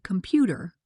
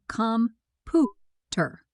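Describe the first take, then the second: First: Said in the usual way. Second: "com-pu-ter" very slowly, broken into three separate syllables, stress on "pu"; syllable by syllable, middle stressed. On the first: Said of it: "we say com-pu-ter". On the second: Shown as a demonstration. Teacher showing learners word stress, "com-pu-ter" slowly split, middle syllable stressed. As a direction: sound out "com-pu-ter" in slow, spaced syllables, leaning on the middle one. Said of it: "The middle syllable is stressed".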